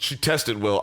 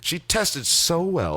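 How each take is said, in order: First: It is said in his normal voice. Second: It is said in a put-on Hollywood producer voice.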